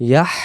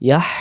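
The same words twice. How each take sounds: The two takes are said the same way.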